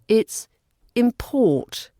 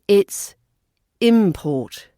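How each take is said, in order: First: The stress is on the second syllable. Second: The stress is on the first syllable. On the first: It is used as a verb. "As a verb" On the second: It is used as a noun. "As a noun"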